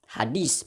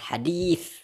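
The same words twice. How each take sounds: First: The middle consonant is a plain s sound. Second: The middle consonant is a lisped th sound.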